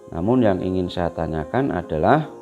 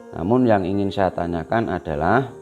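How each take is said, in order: No difference in how they are said.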